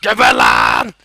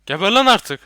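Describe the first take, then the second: First: "Geber lan" roared very low and very loud; monster growl. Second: Loud, high "Geber lan artık"; angry shout. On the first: Acted. Gamer roaring at a monster in a beast voice. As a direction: roar it like a beast. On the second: Real, not acted. Gamer shooting a monster, angry shout. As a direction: yell it at the monster.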